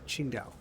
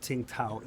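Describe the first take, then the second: First: The name begins with a 'ch' sound. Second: The name begins with a 'ts' sound. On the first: The speaker calls it right. "that's how you pronounce it" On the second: The speaker calls it wrong. "It's not Tsingtao"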